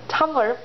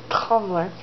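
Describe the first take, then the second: First: Said in the usual way. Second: "Tumblr" with its first vowel opened to "ah"; mispronounced Tumblr. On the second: Real, not acted. Reading out the question's source, "Tumblr" said as "Tomlr". Stumbles on the site's name.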